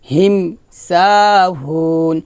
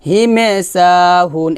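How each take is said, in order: First: The first word ends cleanly on the m sound. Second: The first word ends with an added e vowel. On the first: The speaker calls it right. "বলতে হবে হিম হিম স্পষ্ট করে" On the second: The speaker calls it wrong. "এটা হবে না হিমে বলা যাবে না"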